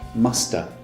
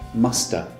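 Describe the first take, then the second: First: The word have is reduced to a schwa. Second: The word have is reduced to a schwa.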